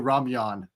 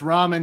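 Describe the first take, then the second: First: The word is said with a glide, rah-myun. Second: The word is said as two syllables, rah-men. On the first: The speaker calls it wrong. "they pronounce it weird" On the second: The speaker calls it right. "it's ramen, you guys"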